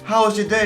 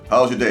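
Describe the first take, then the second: First: It is said in a warm, friendly tone. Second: It is said in a dead, dry tone.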